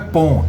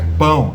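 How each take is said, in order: First: The vowel lacks the Portuguese nasal ão diphthong. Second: The vowel has the Portuguese nasal ão diphthong. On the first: The speaker calls it wrong. "Não é pão" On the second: The speaker calls it right. "é pão"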